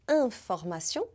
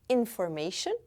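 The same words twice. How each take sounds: First: It is said with a French pronunciation. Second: It is said with an English pronunciation. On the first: "A palavra information" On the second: "que em inglês deu information"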